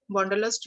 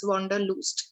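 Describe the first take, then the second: First: Said in the usual way. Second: "wanderlust" said the German way, last vowel an "oo"; "wanderlust" with a German "u" in the final syllable; German pronunciation. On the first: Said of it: "which is an English word". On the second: Shown as a demonstration. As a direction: say "wanderlust" as German, ending in "loost". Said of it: "in German we used to pronounce like this".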